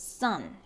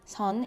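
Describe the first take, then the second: First: The s sound is tense and strong. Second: The s sound is soft and lax. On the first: The speaker calls it right. "it's sun" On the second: The speaker calls it wrong. "So it's not 선"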